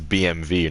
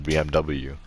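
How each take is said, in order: First: The last letter is said with a V sound. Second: The last letter is said with a W sound. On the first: The speaker calls it right. "They make it V. That's why it's B M W" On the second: The speaker calls it wrong. "not B M W"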